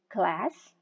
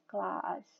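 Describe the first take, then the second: First: The word is said in an American accent. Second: The word is said in a British accent. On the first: "Kalau American English, misalnya dia suka membaca kata jadi class" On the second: "kalau British English will read it as class"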